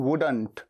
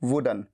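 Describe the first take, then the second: First: The final t sound is pronounced. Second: The final t sound is dropped.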